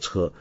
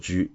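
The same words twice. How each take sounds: First: It has the ordinary everyday reading for vehicle. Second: It has the old reading used in chess terms. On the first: It is the reading that belongs in this idiom. The speaker calls it right. "在学富五车这个成语里面应该读作车" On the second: It is the old reading found in chess terms. The speaker calls it wrong. "古音中车有时候读作车，尤其是在象棋术语"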